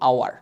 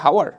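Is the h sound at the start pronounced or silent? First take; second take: silent; pronounced. First: The word begins directly with a vowel sound. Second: The word begins with an audible h sound. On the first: The speaker calls it right. "আমরা বলি কি আওয়ার" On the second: The speaker calls it wrong. "হাওয়ার না"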